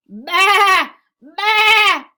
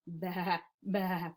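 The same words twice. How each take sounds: First: Long, high, very loud baas; loud sheep bleat. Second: Soft, low little baas; quiet sheep bleat. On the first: Teacher reads the noisy sheep to children, loud high bleating. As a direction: bleat it out at full volume. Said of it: "went the sheep". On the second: Sheep after the farmer's scolding, quiet low bleating. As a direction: bleat gently so nobody wakes. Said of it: "they quietly made their noises". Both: Acted.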